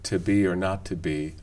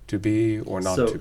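First: The word 'to' has a reduced vowel with unrounded lips. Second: The word 'to' has a reduced vowel with rounded lips. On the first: "I don't personally find to be or not to be hard on the ear" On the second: "some lip rounding continuing to tell our ears that underneath that shwu is a goose"

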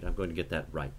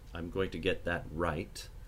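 First: The final t is held without release. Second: The final t is audibly released.

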